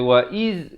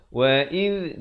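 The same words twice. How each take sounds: First: "wa iz" ending in a buzzing z; wrong zai. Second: "Wa iz" ending in a voiced th; correct dhal. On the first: Teacher warning of misreading, "wa iz" with zai. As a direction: say "wa iz" with a hissed, voiced z. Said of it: "jangan baca wa iz". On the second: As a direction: say "Wa iz" with the tongue tip between the teeth. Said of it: "Di sini huruf zal". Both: Shown as a demonstration.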